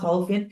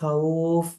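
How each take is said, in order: First: The word ends with the full -in ending. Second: The word ends abruptly without the -in ending. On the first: The reader continues without stopping. "এটা শব্দটা মূলত খাউফিন" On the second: The reader stops at this word. "কিন্তু যখন আপনি এখানে থামবেন এটা হলো যে খাউফ"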